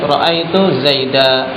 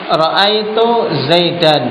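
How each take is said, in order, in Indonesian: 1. Nama itu berakhir dengan 'a' panjang. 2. Nama itu berakhir dengan bunyi '-an'. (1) "Tanwin pada Zaidan diganti menjadi alif"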